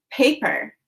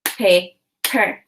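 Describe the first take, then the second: First: Said in the usual way. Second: Paper split into Pa, pause, per; two chunks. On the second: Shown as a demonstration. Teacher demonstrates the two chunks, Paper as Pa... per. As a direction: chop Paper into two separate syllables. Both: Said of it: "Now say the two chunks".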